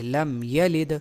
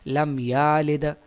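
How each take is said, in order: First: The vowel after y is short. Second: The vowel after y is long. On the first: The speaker calls it right. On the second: The speaker calls it wrong.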